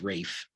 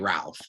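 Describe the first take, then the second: First: The name is said without an L sound. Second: The name is said with an L sound. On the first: The speaker calls it right. "but it's Rafe" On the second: The speaker calls it wrong. "You want to say Ralph"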